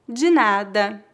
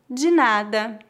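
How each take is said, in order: Both takes have the same delivery.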